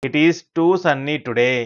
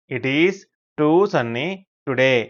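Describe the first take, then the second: First: Slow, joined-up teacher's reading; model sentence. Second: Pauses after "It is" and "too sunny"; chunked repeat. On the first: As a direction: say it slowly in one connected run. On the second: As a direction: break it up for learners: "It is", "too sunny", "today". Teacher repeats it broken into chunks. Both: Shown as a demonstration.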